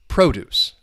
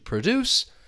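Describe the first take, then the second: First: The stress is on the first syllable. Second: The stress is on the second syllable. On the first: It is a noun meaning food that is grown. "the noun is going to be stressed on the first syllable" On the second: It is a verb meaning to make something. "the verb is going to be stressed on the second syllable"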